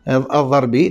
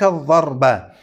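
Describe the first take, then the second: First: The word ends with an i vowel. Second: The word ends with an a vowel. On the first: The speaker calls it wrong. "ربما قرأتها وهما الضربي" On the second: The speaker calls it right. "لكن هي تقرأ هكذا"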